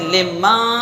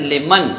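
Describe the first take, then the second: First: The final n is weak, not fully pronounced. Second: The final n is fully and clearly pronounced. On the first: The speaker calls it wrong. "लिमा नहीं पढ़ेंगे" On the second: The speaker calls it right. "नून में हम इजहार करेंगे"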